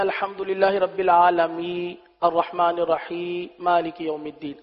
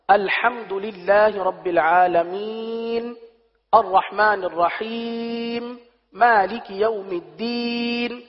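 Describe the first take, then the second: First: The final letters of the words are dropped. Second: The final letters of the words are fully pronounced. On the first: The speaker calls it wrong. "آخری حرف کو حذف کر رہے ہوتے ہیں" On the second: The speaker calls it right. "پورا پڑھنا ہے"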